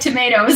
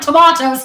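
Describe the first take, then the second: First: It is said in an American accent. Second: It is said in a British accent.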